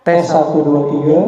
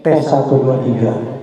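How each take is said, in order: Both takes have the same delivery.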